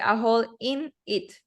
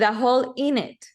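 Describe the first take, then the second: First: The words are said separately with breaks. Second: The words are linked smoothly together. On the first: The speaker calls it wrong. "Don't say a hole in it. No" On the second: The speaker calls it right.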